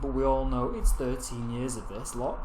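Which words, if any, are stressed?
none. No word stands out with special stress. "rather than saying"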